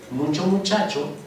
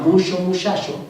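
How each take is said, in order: First: It is said in a Mexico City accent. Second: It is said in a northern Sonora accent. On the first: "un chilango dice" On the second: "un norteño de Sonora que diga"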